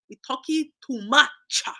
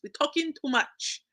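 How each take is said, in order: First: It is said in a Haitian woman's accent. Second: It is said in the speaker's ordinary accent.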